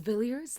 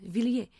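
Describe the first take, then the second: First: The name is said with an English pronunciation. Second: The name is said with a French pronunciation. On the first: "that's the British pronunciation" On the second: "because it's a French name"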